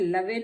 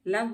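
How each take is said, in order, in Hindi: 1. अंतिम व्यंजन के बाद एक अतिरिक्त स्वर ध्वनि आती है। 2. यह शब्द व्यंजन ध्वनि पर खत्म होता है। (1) "लवे नहीं बोलते हैं" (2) "लव बोलते हैं"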